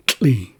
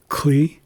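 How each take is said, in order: First: "tli" with a tl onset; tl sound in tli. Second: "Kli" with a hard k before the l; k sound in Kli. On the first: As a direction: set "tli" apart with tl, not k. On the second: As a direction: set "Kli" apart with a k onset. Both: Shown as a demonstration. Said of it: "a significant difference between them".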